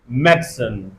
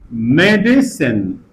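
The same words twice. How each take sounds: First: The middle vowel is dropped, giving two syllables. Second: The word is said with three syllables. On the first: "we can elide this a" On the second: "three syllables"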